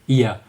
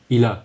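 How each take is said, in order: First: The l sound in il is dropped. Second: The l sound in il is clearly pronounced. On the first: The speaker calls it wrong. "we would never say ia" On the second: The speaker calls it right. "we use il when il is followed by uh, a vowel"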